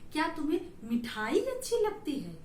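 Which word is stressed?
मिठाई. The word मिठाई is said with extra stress. "तो मिठाई पर हमने बल दिया"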